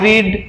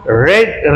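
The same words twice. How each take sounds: First: Teacher saying read as reed for the present tense. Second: Teacher saying read like red for the past tense. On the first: Teacher contrasts present read as reed. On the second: Teacher contrasts past read as red. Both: Shown as a demonstration. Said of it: "উচ্চারণটা শুধু একটু আলাদা হয়".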